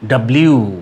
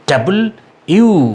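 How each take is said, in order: First: The name is squeezed into one clipped word. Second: The name is said as two separate parts. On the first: The speaker calls it wrong. "ভুল উচ্চারণ" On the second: The speaker calls it right. "এটির উচ্চারণ হবে ডাবল ইউ"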